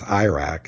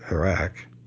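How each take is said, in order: First: The word has the unsophisticated, old-fashioned pronunciation. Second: The word has the modern, preferred pronunciation. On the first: The speaker calls it wrong. "almost everybody in the military and on the right wing still says" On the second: The speaker calls it right. "instead of"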